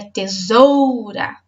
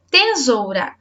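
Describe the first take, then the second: First: Tesoura said slowly as te-SOOOU-ra; stress on SOU. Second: Tesoura said as TEE-soura; stress shifted to TE. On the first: Teacher revealing the strongest syllable, long stress on SOU. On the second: Teacher testing the first syllable, stress on TE. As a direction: punch and stretch TE in tesoura. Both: Shown as a demonstration. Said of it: "A sílaba mais forte é o zoura".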